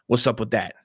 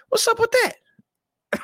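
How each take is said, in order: First: Said in the usual way. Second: Very high, slow, drawn-out squeal; mock falsetto. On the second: Asking about Alex Jones in a very high, slow mock voice. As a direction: stretch it high and slow like a comedy bit. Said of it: "repeated in mock voice".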